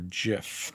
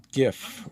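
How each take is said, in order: First: GIF with a soft G, like "jif". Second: GIF with a hard G. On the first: Artist offers viewers both pronunciations, soft G gif. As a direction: say GIF starting with a J sound. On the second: Artist offers viewers both pronunciations, hard G gif. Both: Shown as a demonstration. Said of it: "don't know how you all prefer to say that".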